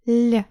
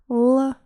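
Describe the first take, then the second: First: The consonant is said soft. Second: The consonant is said hard.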